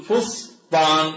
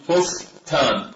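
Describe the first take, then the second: First: "فسطان" as fos-Taan, slowly split and heavy; emphatic ص and ط. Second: "فستان" as fos-taan, ending in a light ت; ص followed by ت. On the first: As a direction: say "فسطان" with dark ص and ط. (نطق "فسطان" بصاد وطاء مفخمتين) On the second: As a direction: split "فستان" and finish on a plain ت. (نطق "فستان" بتاء مرققة) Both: Shown as a demonstration. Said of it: "نقول فستان بالتاء".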